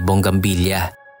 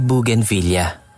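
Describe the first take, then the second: First: It is said as bong-gam-bil-ya, with a 'ng' sound. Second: It is said as boo-gain-vil-le-a, with no 'ng' sound. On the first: The speaker calls it wrong. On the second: The speaker calls it right.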